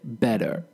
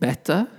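First: The middle consonant is a soft D sound. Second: The middle consonant is a strong T sound. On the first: This is the American pronunciation. "But American people would say better" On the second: This is the British pronunciation. "So it's getting better, ... I would say"

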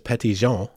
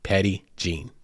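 First: The name is said with a French pronunciation. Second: The name is said with an English pronunciation. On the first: This is the original form of the name. The speaker calls it right. "It is French, and it is more properly pronounced as" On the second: This is how locals say the name. The speaker calls it wrong. "the colloquial way of pronouncing it here"

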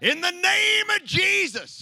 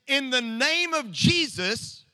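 First: The words are said in a loud, passionate voice. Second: The words are said in a calm, plain voice. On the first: "the yelling a little bit, kind of drop their voice a few octaves, up the passion a little bit" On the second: "I'm sure they didn't just say it"

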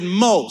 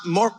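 First: The word ends without an r sound. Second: The word ends with a clear r sound. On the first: The speaker calls it right. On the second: The speaker calls it wrong. "Not more"

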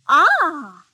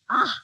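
First: It sounds pleased. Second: It sounds disgusted.

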